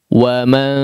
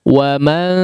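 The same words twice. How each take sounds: The two takes are said the same way.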